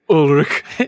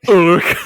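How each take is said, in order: First: The name is said a bit more loosely. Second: The name is said lazily and slurred. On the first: "he gets like lazier and lazier as he pronounces it" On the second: "he gets like lazier and lazier as he pronounces it"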